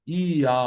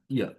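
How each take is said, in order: First: ইয়া stretched into a long "ee", then a long "aa"; drawn-out syllables. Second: ইয়া in one short "ya" beat; quick glide. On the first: Teacher showing how not to say it, drawn out. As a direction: drag ইয়া out in two parts. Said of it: "এরকম না". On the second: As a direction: slide quickly through ইয়া. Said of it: "খুব দ্রুততার সাথে". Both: Shown as a demonstration.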